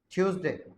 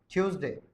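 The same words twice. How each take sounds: The two takes are said the same way.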